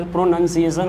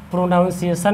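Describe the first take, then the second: First: "प्रोनाउंसिएशन" with "nun", not "noun"; correct pronunciation. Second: "प्रोनाउंसिएशन" with a "noun" syllable; wrong pronunciation. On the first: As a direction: say "प्रोनाउंसिएशन" as pro-nun-si-ation. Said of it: "प्रोनाउंसिएशन होता है". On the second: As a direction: say "प्रोनाउंसिएशन" as pro-NOUN-si-ation. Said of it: "प्रोनाउंसिएशन नहीं होता है". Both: Shown as a demonstration.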